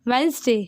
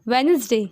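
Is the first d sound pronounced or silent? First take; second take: silent; silent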